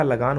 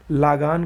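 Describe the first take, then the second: First: लगान with short first "la"; correct pronunciation. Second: लागान with long first "laa"; wrong pronunciation. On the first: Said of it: "लगान होता है". (लगान में छोटा "ल") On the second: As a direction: stretch the first vowel of लागान. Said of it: "का लगान होता है". (लागान में लंबा "ला") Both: Shown as a demonstration.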